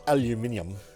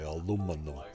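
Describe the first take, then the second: First: It is pronounced a non-North American way. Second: It is pronounced the North American way. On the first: "not aluminium" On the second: "that's how we say it in um, North America. We say aluminum"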